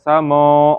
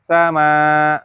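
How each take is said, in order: First: The long vowel is heavy and full. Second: The long vowel is thin and light. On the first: The speaker calls it wrong. "enggak samo" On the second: The speaker calls it right. "maka dibaca tarqiq ya"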